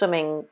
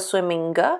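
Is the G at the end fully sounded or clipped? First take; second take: clipped; full. First: The final G is clipped and not released. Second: The final G is fully sounded and released. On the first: The speaker calls it right. "sometimes we do the kind of half G, like swimming, it's the G stops" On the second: The speaker calls it wrong. "You don't go swimming"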